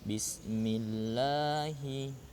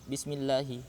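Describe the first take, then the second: First: The vowel in 'la' is held long. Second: The vowel in 'la' is held short. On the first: The speaker calls it right. "tapi bismillahi, la-nya panjang dua rakaat" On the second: The speaker calls it wrong. "jadi jangan bismillahi"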